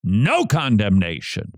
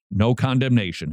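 First: «No» stressed, «condemnation» falls away. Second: «condemnation» gets the weight, «No» stays light; stress on condemnation. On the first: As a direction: push «No» as the decisive first word. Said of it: "Paul puts "no" in the most persuasive form at the very beginning". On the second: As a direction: lean on «condemnation», not on «No». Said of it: "Paul puts "no" in the most persuasive form". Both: Shown as a demonstration.

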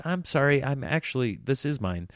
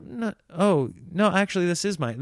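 First: Sheepish, softer and trailing off; mock apologising while still claiming the seat; apologetic. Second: Said in the usual way. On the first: To the tall guy in my seat, an apologetic, softer correction. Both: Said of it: "you know how you apologize?".

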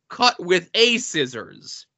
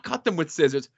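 First: "a" said as a full, stressed AY; slow it down and hit "a" as AY; deliberate correction, "a" spelled out as AY. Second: Said in the usual way. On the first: Shown as a demonstration. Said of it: "or no, not cut them with scissors". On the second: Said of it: "no, not cut them with scissors".

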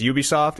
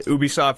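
First: "Ubisoft" with a y-oo opening; official pronunciation. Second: "Ubisoft" with an oo opening; alternative pronunciation. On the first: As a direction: start "Ubisoft" like the word you. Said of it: "it's officially Ubisoft". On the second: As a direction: start "Ubisoft" with a pure oo, no y sound. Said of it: "Ubisoft versus Ubisoft". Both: Shown as a demonstration.

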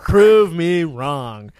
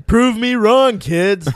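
First: Slow drawn challenge. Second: Challenge. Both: Real, not acted. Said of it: "Tune in".

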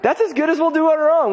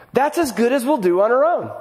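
First: Higher, louder and faster restatement; emphatic repeat. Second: Said in the usual way. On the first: Real, not acted. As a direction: drive the point home. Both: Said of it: "repeated louder".

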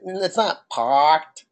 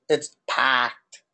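First: "parked" slowly, with the R sounded. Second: "packed" with a stressed A and no R; Boston A. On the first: Correcting the cohost's Boston accent, "parked" with its R. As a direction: say "parked" drawn out, R pronounced. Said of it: "The A is the one that's". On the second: Correcting the cohost's Boston accent, "packed" with stressed A. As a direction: drop the R, lean on the A in "packed". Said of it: "The A is the one that's emphasized". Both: Shown as a demonstration.

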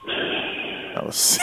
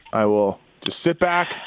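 First: Breathy, drawn-out sighing words; long sigh. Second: Said in the usual way. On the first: Acted. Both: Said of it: "A long sigh".

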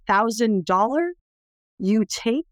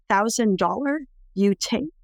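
First: Slow, lightly voiced broken-English question; mild imitation of the mother, slow and rising; broken English offer. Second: Slow, lightly voiced broken-English question again; mild imitation of the mother, slow and rising; repeated broken English offer. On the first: Cambodian mother offers her baby to tourists, slow imitation. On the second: Mother repeats her offer to the daughter, slow imitation.

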